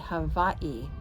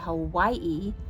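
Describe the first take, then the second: First: The middle consonant sounds like a V. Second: The middle consonant is a plain W sound.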